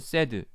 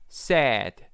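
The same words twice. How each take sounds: First: The vowel is said the Korean way. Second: The vowel is said the English way. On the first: The speaker calls it wrong. "그래서 이거는 sad 한국말이죠" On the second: The speaker calls it right. "이거는 sad"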